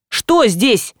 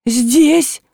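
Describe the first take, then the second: First: Puzzled question with a rise; mildly baffled query; uncomprehending. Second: Mildly tearful, higher-pitched cry; understated whimpering exclamation; sobbing. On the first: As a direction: ask as if not following. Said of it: "не сообразил эксперт". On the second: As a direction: answer with a touch of a sob. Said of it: "всхлипнула Галина". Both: A narrator's reading.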